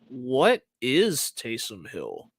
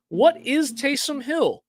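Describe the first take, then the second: First: The pitch stays down, sounding puzzled. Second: The pitch goes up, sounding intrigued.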